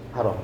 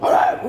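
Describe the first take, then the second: First: The word is said firmly but calmly. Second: The word is shouted harshly.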